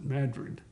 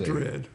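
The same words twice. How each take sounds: First: It is said the Alabama town's local way. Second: It is said the usual way for the Spanish city. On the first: It names the town in Alabama. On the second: It names the city in Spain.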